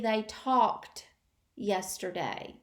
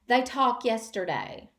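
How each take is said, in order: First: The final -ed sound of talked is pronounced. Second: The final -ed sound of talked is dropped. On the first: The speaker calls it right. "It should be" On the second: The speaker calls it wrong. "They sometimes omit the final ed"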